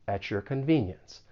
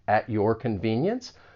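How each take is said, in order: First: The t and y blend into a ch sound. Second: The t and y stay separate sounds. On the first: "we can place that slight ch between the words at and your" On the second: "this is not something that's always going to happen"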